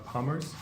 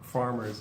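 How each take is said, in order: First: The word begins with a P sound. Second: The word begins with an F sound. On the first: The speaker calls it wrong. "you were pronouncing it kind of like uh, palmers" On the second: The speaker calls it right. "but farmers is, is yeah"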